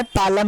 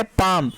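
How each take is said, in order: First: "पालम" said as pa-lam with an audible L; wrongly sounded L. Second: "पाम" said as paam with no L; one open syllable closing on M in "पाम"; correct silent L. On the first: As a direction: put the L into "पालम". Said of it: "नहीं है dear student". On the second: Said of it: "एल word silent है". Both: Shown as a demonstration.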